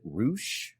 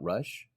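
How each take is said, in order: First: The vowel is a long 'oo' sound. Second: The vowel is a short 'uh' sound. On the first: The speaker calls it right. "I believe he pronounces it Roosh" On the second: The speaker calls it wrong. "not Rush"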